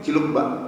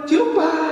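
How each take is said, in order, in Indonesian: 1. Diucapkan datar, tanpa ekspresi. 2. Diucapkan penuh semangat, dengan ekspresi yang kuat.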